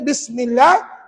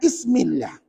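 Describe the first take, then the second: First: The word begins with a 'b' sound. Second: The word begins with a vowel sound. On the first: The speaker calls it right. "Contohnya bismillah" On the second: The speaker calls it wrong. "dibaca dengan ismillah. Tak baca ba kat situ"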